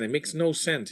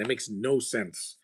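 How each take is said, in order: First: Said in the usual way. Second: Slow, softer, leaning on no; slow emphatic repeat. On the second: Real, not acted. Viewer grumbling about an actor's accent, slowly and softer. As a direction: draw out each word as a tired verdict. Repeats complaint, slower and quieter.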